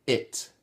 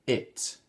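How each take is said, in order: Both takes have the same delivery.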